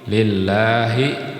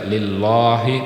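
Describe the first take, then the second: First: The L sound is light and thin. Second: The L sound is heavy and thick. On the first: The speaker calls it right. "lam tarqiq itu dibaca tipis" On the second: The speaker calls it wrong. "bukan dibaca lillahi"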